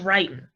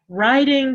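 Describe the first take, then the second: First: The ending is said as 'in', g dropped. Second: The ending is said with a full 'ing' sound.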